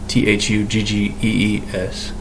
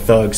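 First: The word is said as two syllables. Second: The word is said as one syllable. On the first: The speaker calls it right. "Spelled as if it were thuggies" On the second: The speaker calls it wrong. "Perhaps I've pronounced that wrong"

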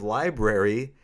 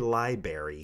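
First: The word is said fully, with every sound. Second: The word is said loosely, with a sound dropped. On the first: The speaker calls it right. "instead of library" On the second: The speaker calls it wrong. "It's lazy talk"

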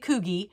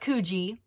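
First: The name is said with the pronunciation the speaker now uses. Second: The name is said with the pronunciation the speaker once used. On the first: The speaker calls it right. "It's actually Coogee" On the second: The speaker calls it wrong. "it's not Coogee, like I used to think"

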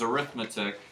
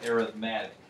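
First: It is said the way the noun is said. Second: It is said the way the adjective is said. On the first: It names the study of numbers. "when we're talking about the study of arithmetic as a noun, we pronounce it that way" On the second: It describes a kind of sequence. "when we use it as an adjective like this, we usually pronounce it arithmetic"

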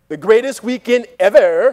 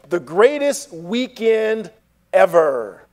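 First: It is said in a Valley girl voice. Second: It is said in his plain voice.

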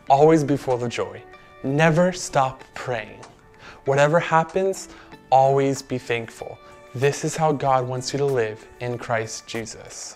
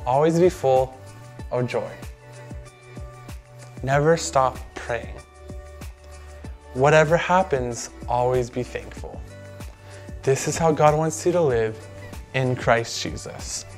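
First: It is said at a normal pace. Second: It is said slowly.

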